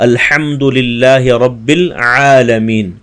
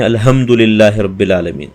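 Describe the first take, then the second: First: الحمد with a clear throaty ha, very slow; correct tajweed. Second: الحمد said without a clear ha or ain, rushed; careless recitation. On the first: Teacher shows students the correct ha and ain, slow recitation. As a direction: articulate each letter of الحمد للہ رب العالمین slowly. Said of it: "اسی لیے خاص خیال رکھنا چاہیے". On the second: Teacher imitates students' careless reading, ha and ain blurred. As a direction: read الحمد للہ رب العالمین without tajweed. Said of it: "بغیر تجوید کے پڑھتے ہیں". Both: Shown as a demonstration.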